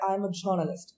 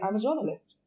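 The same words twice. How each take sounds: First: It has an American accent with a strong R. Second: It has an Indian accent with a light R. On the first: "The way she has pronounced it, she said" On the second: "But the way I will say it"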